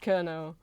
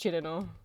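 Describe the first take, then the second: First: The name begins with a 'k' sound. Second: The name begins with a 'ch' sound. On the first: The speaker calls it wrong. "maybe you'd pronounce it as Kerno, but it's not" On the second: The speaker calls it right. "it is pronounced Chirino"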